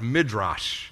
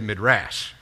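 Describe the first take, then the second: First: It is said in a standard way. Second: It is said with a South Texas accent.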